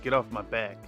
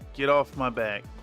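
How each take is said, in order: First: It is said mildly, without aggression. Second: It is said in an awkwardly aggressive tone. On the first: The speaker calls it wrong. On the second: The speaker calls it right.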